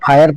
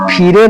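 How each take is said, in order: First: The vowel sounds like 'eye', ending in 'er'. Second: The vowel sounds like 'ee', with a final 're'. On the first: The speaker calls it right. "फायर पढ़ना है" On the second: The speaker calls it wrong. "फिरे पढ़ने पर तो गलत होगा"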